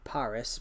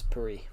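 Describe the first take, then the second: First: Said in the usual way. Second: Paris with the s dropped, "puh-REE"; French pronunciation. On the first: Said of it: "You spell it Paris". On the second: Shown as a demonstration. Showing actual French to a viewer, Paris pronounced "puh-REE". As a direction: end Paris on a stressed "ee". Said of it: "'Cause you take the S off".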